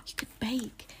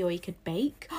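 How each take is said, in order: First: Excited gasp, then higher, soft, drawn-out words; really excited. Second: Said in the usual way. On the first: Real, not acted. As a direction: gasp at your own brilliant idea, slowly savouring it. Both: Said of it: "I got really excited then".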